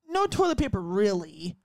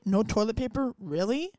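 First: It ends as a flat, plain statement. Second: It ends as an incredulous, surprised question.

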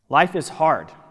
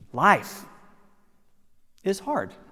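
First: It sounds flat and resigned. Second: It sounds warm and inviting.

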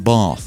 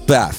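First: The word is said in a standard, non-regional accent. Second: The word is said in a Midlands regional accent. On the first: This is not how the speaker really talks. "He does not say bath" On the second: This is how the speaker really talks. "He says, bath"

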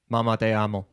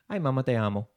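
First: It is said flatly, like a robot. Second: It is said with natural, expressive cadence.

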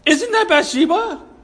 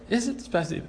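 First: It is asked in alarmed disbelief. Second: It is asked as a calm, plain question.

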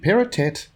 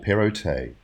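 First: The final T sound is pronounced. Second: The final T sound is silent. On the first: "Do we say the T" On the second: "or say it nay?"

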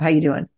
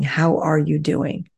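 First: It sounds casual and offhand. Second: It sounds sincere and attentive.

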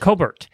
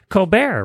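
First: The name is pronounced without the French sound. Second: The name is pronounced the French way. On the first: The speaker calls it right. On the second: The speaker calls it wrong.

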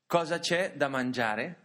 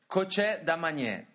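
First: It is said in standard Italian. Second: It is said in the local Italian dialect.

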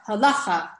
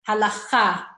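First: The stress is on the first syllable. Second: The stress is on the last syllable. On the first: The speaker calls it wrong. "They pronounce it all in the beginning of the word" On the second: The speaker calls it right.

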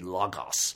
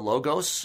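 First: It is said with a Greek pronunciation. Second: It is said with a common English pronunciation.

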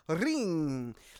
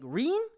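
First: The R sound is rolled. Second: The R sound is plain, not rolled. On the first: "rolls every R that exists" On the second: "that's not how he says it"

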